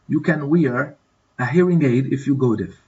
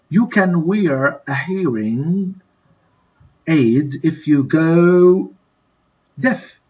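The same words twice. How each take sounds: First: Said in the usual way. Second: Drawn out, pausing before the answer; slow fill-in-the-blank reading. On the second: Shown as a demonstration. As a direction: stretch the words, then pause and supply the missing word. Teacher fills in exercise blank.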